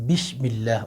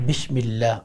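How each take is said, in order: The two takes are said the same way.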